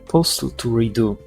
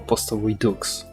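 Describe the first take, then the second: First: The word ends without a final ks sound. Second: The word ends with a final ks sound. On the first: The speaker calls it right. "I didn't know the X is silent" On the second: The speaker calls it wrong. "I was calling Postal Redo Postal Redux"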